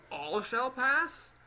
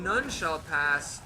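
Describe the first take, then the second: First: Slow, drawn-out with a rising finish; playful parody of the guardian; mock knight line. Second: Slow, drawn-out knightly proclamation; mock stern guardian voice; imitating the knight. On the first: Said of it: "Shouldn't he say". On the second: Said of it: "Why is it that he's saying".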